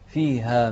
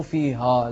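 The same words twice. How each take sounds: First: فيها with a light, open "haa"; light long a. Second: فيها with a thickened, rounded final "haw"; faulty "fee-haw" for فيها; wrong heavy vowel. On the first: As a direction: keep the final alif of فيها thin. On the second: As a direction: darken the alif at the end of فيها. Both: Shown as a demonstration. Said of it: "مش، مو فيها".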